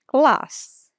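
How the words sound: A long stretched British vowel is used. "Puxa esse A aí"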